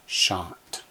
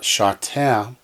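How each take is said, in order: First: The word ends cleanly on the final consonant. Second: A short vowel is added after the final consonant. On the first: The speaker calls it right. "it's simply shot" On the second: The speaker calls it wrong. "it's not shateh"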